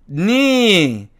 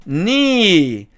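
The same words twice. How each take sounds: Both takes have the same delivery.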